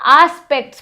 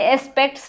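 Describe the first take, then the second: First: The word begins with a long 'aa' vowel. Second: The word begins with a short 'e' vowel. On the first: The speaker calls it right. "यहां पे double ए का sound आता है, आ" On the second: The speaker calls it wrong. "पर इसे एस्पेक्ट्स नहीं बोलते"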